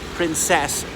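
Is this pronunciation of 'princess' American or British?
British. It is said the British way, unlike prince's.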